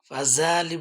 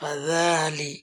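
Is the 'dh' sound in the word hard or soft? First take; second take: hard; soft. First: The 'dh' sound is said hard. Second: The 'dh' sound is said soft. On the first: The speaker calls it wrong. "বললে হবে না" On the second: The speaker calls it right. "ذا নরম করে"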